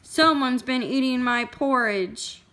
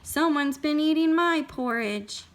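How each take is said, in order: First: It is said in a great, huge voice. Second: It is said in a medium-sized voice.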